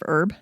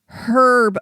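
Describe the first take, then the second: First: The word begins without any h sound. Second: The word begins with an audible h sound. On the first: This is how it is said in the US. "instead of herb" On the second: This is how it is said in the UK. "They say herb over there because there's a flipping H in it"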